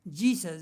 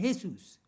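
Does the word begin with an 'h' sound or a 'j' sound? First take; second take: j sound; h sound. First: The word begins with a 'j' sound. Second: The word begins with an 'h' sound. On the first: This is the English way. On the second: This is the Spanish way.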